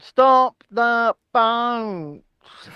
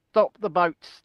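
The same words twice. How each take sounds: First: Hugely stretched, solemn three-word slogan; one slow word at a time, pompously; Rishi Sunak. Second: Said in the usual way. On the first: Acted. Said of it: "I mean, three-word slogan".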